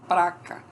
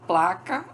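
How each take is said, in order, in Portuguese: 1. A palavra é dita com R depois do p. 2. A palavra é dita com L depois do p.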